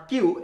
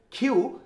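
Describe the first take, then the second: First: কিউ as a hard, dry "kyu"; the mistaken "কিউ", K without breath; unaspirated Q. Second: কিউ as an airy "khyu"; aspirated Q. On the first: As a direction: say "কিউ" with no puff of air. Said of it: "এটা not কিউ". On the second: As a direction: say "কিউ" with a puff after the K sound. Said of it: "এটাও কি খ এর মতো sound হবে". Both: Shown as a demonstration.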